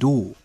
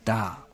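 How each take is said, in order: First: The vowel is said as an o sound. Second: The vowel is said as an a sound. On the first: "A wird zu O" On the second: "auf Hochdeutsch"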